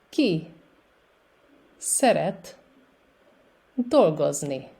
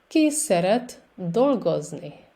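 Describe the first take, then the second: First: It is said at a slower pace. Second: It is said at a faster pace.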